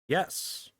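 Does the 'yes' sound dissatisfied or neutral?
neutral. It lacks a dissatisfied tone.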